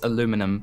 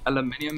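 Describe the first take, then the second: First: It uses the American pronunciation. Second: It uses the global, non-American pronunciation. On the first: "it's aluminum for Americans" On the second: "aluminium is how it's pronounced globally"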